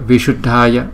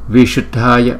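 The two takes are said the same way.

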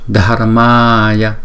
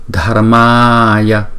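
The two takes are said the same way.

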